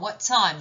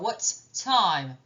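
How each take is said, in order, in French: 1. Les deux sons t se fondent en un seul. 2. Les deux sons t sont prononcés séparément. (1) "il y en a un qui n'est pas lu" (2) "je ne vais pas faire what time"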